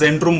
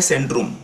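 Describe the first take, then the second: First: The word begins with a z sound. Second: The word begins with an s sound. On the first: The speaker calls it wrong. "आपण इंग्लिशमध्ये बोलतो झेंट्रूम" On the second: The speaker calls it right. "पण हे आहे सेंट्रूम"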